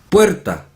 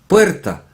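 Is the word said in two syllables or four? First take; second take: two; two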